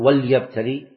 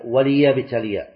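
First: The l sound has no vowel after it. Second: The l sound is followed by a short i vowel. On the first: The speaker calls it wrong. "ما تقول وليبتلي" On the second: The speaker calls it right. "لا، هي وليبتلي"

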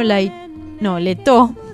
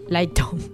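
First: The first vowel is a plain 'e' sound. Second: The first vowel is an 'ai' glide. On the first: This is how the name is properly said. "el apellido pronunciado correctamente" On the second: This is how friends casually call him. "conocido como, por nosotros como Lucho Laito"

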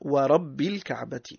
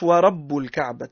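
First: The word rabb ends with an i vowel. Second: The word rabb ends with a u vowel. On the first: It is an oath sworn by the Lord. The speaker calls it right. "تقرأ بالكسرة" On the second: The Lord becomes the subject being described. The speaker calls it wrong. "ما نقرأهاش"

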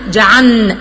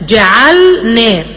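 First: The L merges into the following N sound. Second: The L is clearly pronounced before the N. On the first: The speaker calls it wrong. "ما بتنطقش اللام خالص" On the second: The speaker calls it right. "لازم اوضحها واظهرها تماما"

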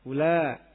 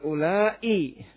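First: The word ends short, with no glottal stop. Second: The word is lengthened, with a glottal stop. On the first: "dengan qasr" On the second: "memanjangkan ula dengan dikatakan ula'i dengan dikasih tam hamzah"

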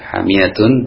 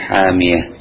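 First: The word ends with a t and -un ending. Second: The word ends with a soft h sound.

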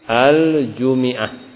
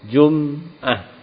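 First: The m is followed by an i vowel. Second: The m is followed by no vowel. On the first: This is a reading reported by az-Zajjaj. "dikasokan mimnya" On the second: This is a reading attributed to al-A'mash. "Kadang-kadang mimnya disukun"

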